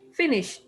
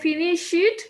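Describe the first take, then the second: First: The ending is a short t sound. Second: The ending is an extra id syllable. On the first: The speaker calls it right. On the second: The speaker calls it wrong.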